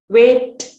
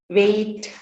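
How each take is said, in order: First: Said in the usual way. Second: "wait" with a y glide before the t; added y sound. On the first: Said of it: "For example". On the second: Shown as a demonstration. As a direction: stretch "wait" towards "wayit". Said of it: "addition of, uh, diphthongs".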